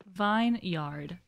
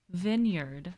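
First: "vineyard" said as two words, vine and yard. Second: Said in the usual way. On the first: Shown as a demonstration. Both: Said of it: "now making that connection".

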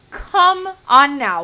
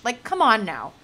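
First: Loud, slow, drawn-out groan of disbelief; exasperated come on now. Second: Said in the usual way. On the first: Real, not acted. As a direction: stretch it out loud, fed up. Exasperated repeat of complaint.

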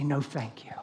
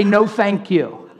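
First: The stranger's no, barely whispered; a hushed, gentle no thank you; whispered refusal. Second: Slow, higher, louder mock refusal; a lightly voiced stranger saying no; polite refusal. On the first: Retold or imitated. Imitating a stranger's soft refusal, whispered. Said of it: "probably say". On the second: Imitating a stranger turning down prayer, mock polite. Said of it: "They're probably gonna say".

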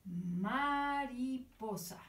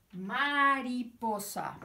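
First: "Mariposa" stretched out slowly, "ma-ri-po-sa"; slow syllable reading. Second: "Mariposa" drawn out slowly, each syllable clear; slow syllable reading. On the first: Teacher reading the word slowly for children to repeat. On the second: Teacher repeating the word slowly with the children. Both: Shown as a demonstration. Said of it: "Dice así".

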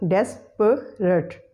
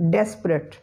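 First: Slow "desperate" as DES, puh, rut; three syllables. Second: "desperate" as two syllables, DES-prut; schwa eliminated. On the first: Teacher counting three syllables, "desperate" slowly split as des-puh-rut. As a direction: sound out all three parts of "desperate". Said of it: "there are three syllables". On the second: Teacher showing the eliminated schwa, "desperate" said as DES-prut. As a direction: run P straight into R in "desperate". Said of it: "will be pronounced as desperate". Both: Shown as a demonstration.

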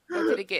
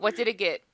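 First: Anxious, higher repeat. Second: Said in the usual way. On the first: Real, not acted. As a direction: pitch it up and a bit louder, pressing. Anxious asking about result.

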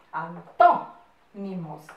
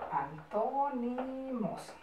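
First: Broken after a loud "tó"; slow dictation. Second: Quiet, drawn-out syllables; slow soft dictation. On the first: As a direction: split the word, punching the accented syllable. Teacher dictating, marking accented syllable. (dictado lento, marcando la sílaba tónica) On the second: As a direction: repeat it softly and slowly for copying. Teacher repeats dictated word softly. (dictado lento en voz baja) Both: Shown as a demonstration.

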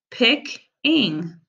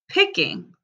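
First: "Pick-ing" split into two syllables; sounded out. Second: Said in the usual way. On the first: Shown as a demonstration. Teacher to pupils: "Pick-ing" in two parts. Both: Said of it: "I'm gonna sound them out".

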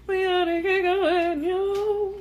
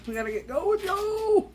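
First: Sung, high, slow singsong hurry-up; playful singing. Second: Starts normal, swoops way up high; playful rallying call. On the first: Vlogger reminds herself to get going, high playful singing. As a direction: sing it high and drawn out. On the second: Vlogger sees it's eleven eleven, playful rising call. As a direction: climb to a high, stretched "yo". Playful hurry after checking the time. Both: Pretend.

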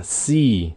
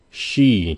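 First: "She" said as "see", with a thin S; plain S sound. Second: "She" with lips pushed out for SH; rounded SH sound. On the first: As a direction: start "She" on S, with no SH. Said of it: "âm S với lại âm S H". (đọc "She" thành "si", âm S) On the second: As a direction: pout into the SH of "She". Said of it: "để ý cái môi đẹp trai của mình". (chu môi đọc âm SH trong "She") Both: Shown as a demonstration.

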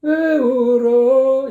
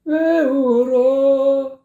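First: High, slow, louder imitation of 왜 울어; exaggerated parody of the bad take; mock wrong take. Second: High, slow imitation of the bad phrasing; mock wrong take. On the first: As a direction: overdo the singer's broken rhythm. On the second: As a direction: stretch 왜 울어 as the singer did. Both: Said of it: "이렇게 하고 있다고".

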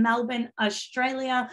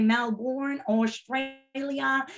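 First: Said in the usual way. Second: Mock American accent, drawn-out Australia; terrible American accent attempt. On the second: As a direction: badly imitate how Americans say it. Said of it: "that is my terrible accent or attempt at an accent".

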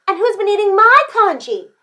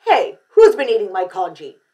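First: High, loud Mama Bear style cry; indignant storybook mom; crying-out mother. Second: Loud Papa Bear style demand; indignant storybook dad; demanding father. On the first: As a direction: echo the outrage in a high voice. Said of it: "cried Missus Chan". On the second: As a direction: confront the culprit in a big voice. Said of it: "demanded Mister Chan". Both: A narrator's reading.

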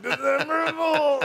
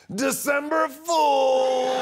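First: Drawn-out reveal shout. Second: Stretched, much higher, louder shout of December Fool; triumphant prank reveal. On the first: Shown as a demonstration. Showing the host how to say it, a long gleeful shout. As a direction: belt December Fool slowly, gleeful. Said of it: "you gotta say it like that". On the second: Retold or imitated. To his agent after the fake scandal, a gleeful drawn-out shout. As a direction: sing it out long and gleeful like a game-show reveal. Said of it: "I was like".

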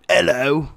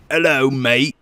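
First: Higher put-on British greeting; British accent. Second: Louder put-on Australian greeting; Australian accent. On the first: Gamer demonstrating impressions to teammates, British accent. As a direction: do a quick hammy British hello. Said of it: "my British". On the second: Gamer demonstrating impressions to teammates, Australian accent. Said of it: "And then I have an Australian". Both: Shown as a demonstration.

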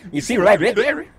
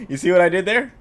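First: Goofy altered voice, rising end; joking put-on voice. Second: Said in the usual way. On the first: Shown as a demonstration. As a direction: put on a silly voice for the pun.

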